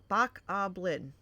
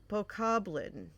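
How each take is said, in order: Both takes have the same delivery.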